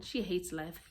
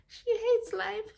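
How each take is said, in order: First: Said in the usual way. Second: Slow, high, drawn-out exclamation; high-pitched repeat. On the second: Real, not acted. Reader on Josephine who hates life, high drawn-out exclamation. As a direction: stretch it out high, lifting at the end.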